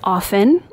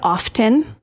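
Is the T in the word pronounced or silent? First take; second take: silent; pronounced. First: The T sound is left out. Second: The T sound is clearly pronounced. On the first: The speaker calls it right. "It is often. ... The T is silent" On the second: The speaker calls it wrong. "Apparently, I said often"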